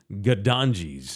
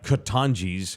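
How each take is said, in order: First: Gadanji's begun with a g and a d; downstairs name. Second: Katanji's begun with a k and a t; upstairs name. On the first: Host telling the two similar restaurant names apart, Gadanji's with g and d. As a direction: say Gadanji's with g and d sounds. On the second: Host telling the two similar restaurant names apart, Katanji's with k and t. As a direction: say Katanji's with crisp k and t sounds. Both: Shown as a demonstration. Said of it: "name is super similar, like, by one letter".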